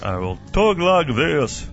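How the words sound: The voice sounds like a man giving a speech. A politician is speaking. "Kinda like a speech-given guy"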